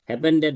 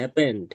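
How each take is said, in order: First: It adds an extra -ed syllable, three syllables. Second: It ends in a single d, two syllables. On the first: The speaker calls it wrong. "হ্যাপেন্ডেড না" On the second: The speaker calls it right. "উচ্চারণ হবে হ্যাপেন্ড"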